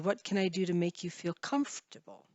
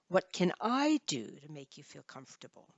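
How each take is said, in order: First: The word comfortable carries the main stress. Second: The word I carries the main stress. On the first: "comfortable would be the stressed word" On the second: "stress the I"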